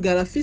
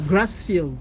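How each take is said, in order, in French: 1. Le mot se termine par 'fis', sans groupe 'r'. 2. Le mot se termine par 'field', avec un début en 'gr'. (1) "c'est en fait une mauvaise prononciation du mot" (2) "le nom anglais"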